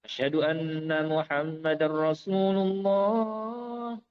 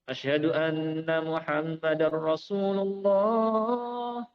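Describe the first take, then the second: Both takes have the same delivery.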